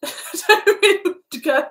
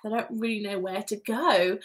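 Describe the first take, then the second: First: High, loud words squeezed through laughing; real giggly fluster; speechless with laughter. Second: Said in the usual way. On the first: Real, not acted. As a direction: laugh helplessly as you lose your thread. Thrown by comment, laughing.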